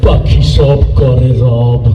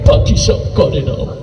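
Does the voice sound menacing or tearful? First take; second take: menacing; tearful. First: It is said in a fierce, menacing voice. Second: It is said in a weeping, tearful voice. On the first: "তোরটা তো আরো ভয়ঙ্কর বেশি শোনা গেল" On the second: "কান্দতে কান্দতে কয়"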